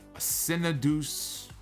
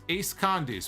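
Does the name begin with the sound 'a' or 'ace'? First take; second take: a; ace. First: The name starts with a bare 'a' sound. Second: The name starts with the word 'ace'. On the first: The speaker calls it wrong. "I was totally reading that the wrong way" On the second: The speaker calls it right. "We'll call him Ace"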